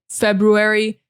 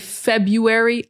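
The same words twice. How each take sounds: First: The first R sound is clearly pronounced. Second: The first R sound is left out. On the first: "some people do pronounce the R" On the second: "I don't pronounce the R"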